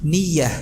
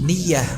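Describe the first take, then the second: Both takes have the same delivery.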